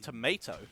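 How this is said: It is said with an American accent.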